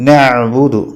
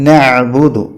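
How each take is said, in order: The two takes are said the same way.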